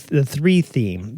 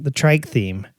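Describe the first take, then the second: First: "three" said slowly by mistake; slip of tongue. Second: Said in the usual way. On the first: Real, not acted. Host mixing up trike theme, slow slip.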